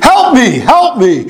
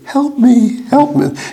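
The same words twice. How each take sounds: First: It is said loudly, at full volume. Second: It is said quietly, in a small voice.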